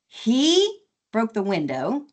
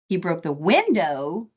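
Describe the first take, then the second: First: The stress falls on the word he. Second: The stress falls on the word window. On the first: It was him, not someone else, who broke it. "as opposed to she or it" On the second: It was the window, not something else. "as opposed to the window or the door or something else"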